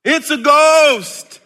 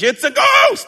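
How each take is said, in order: First: Loud, high, slow scared cry; terrified cry. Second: Loud, high scared shout; frightened shout. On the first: Disciples in the storm, loud high scared cry. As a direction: shout it as a frightened disciple. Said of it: "they cried out in fear". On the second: Disciples seeing Jesus on the water, loud high frightened shout. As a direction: yell it like a panicked disciple. Disciples' cry voiced again. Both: Acted.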